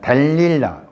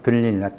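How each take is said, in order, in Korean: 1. 첫 음절의 모음은 'e'(del)입니다. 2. 첫 음절의 모음은 'eu'(deul)입니다. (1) "발음은 델릴라인데" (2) "번역은 들릴라입니다"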